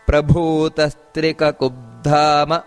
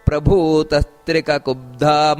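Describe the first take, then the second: First: The vowels are kept short. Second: A vowel is drawn out long. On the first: The speaker calls it right. "ಇಷ್ಟೇ ಹೇಳಬೇಕು" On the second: The speaker calls it wrong. "ಎಳಿತಾರೆ"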